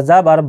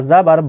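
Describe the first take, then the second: No difference in how they are said.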